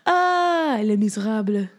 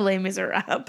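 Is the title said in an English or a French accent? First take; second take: French; English. First: It is said in an exaggerated French accent. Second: It is said in a plain English accent.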